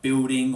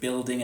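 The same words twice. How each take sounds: First: The L is said like a W vowel. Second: The L is said as a clear L. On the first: "the L sound changes to more of a W U sound" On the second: "instead of"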